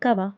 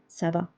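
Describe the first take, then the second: First: The first word begins with a k sound. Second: The first word begins with an s sound. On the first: The speaker calls it wrong. "Instead of saying kava" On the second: The speaker calls it right. "we are saying ça va because of this accent"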